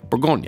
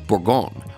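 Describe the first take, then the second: First: It is said with an English pronunciation. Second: It is said with a full French pronunciation. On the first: "the English pronunciation" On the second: "The French would actually pronounce this word Bourgogne"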